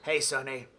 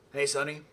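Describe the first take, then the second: First: The voice is rough and gravelly. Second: The voice is smoother, with a New York sound.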